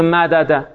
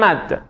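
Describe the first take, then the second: First: The two d sounds are said as separate syllables. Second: The two d sounds merge into one doubled sound. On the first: The speaker calls it wrong. "هیچ عربی پیدا نمیکنه بگه مدده" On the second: The speaker calls it right. "همه میگن مد"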